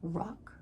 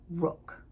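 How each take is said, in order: First: The vowel is open, like in 'rock'. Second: The vowel is rounded, like in 'book'. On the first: "I pronounced it rock" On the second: "I put rock versus rook"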